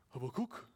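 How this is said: The name is said with its Hebrew pronunciation. "I'm not going to pronounce the Hebrew"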